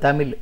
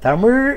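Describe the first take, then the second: First: The final consonant is a plain l sound. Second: The final consonant is a curled-back zh sound. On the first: The speaker calls it wrong. "இப்போ எல்லோரும் பேசி கொண்டிருப்பது" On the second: The speaker calls it right. "தமிழ் என்று சொல்லணும்"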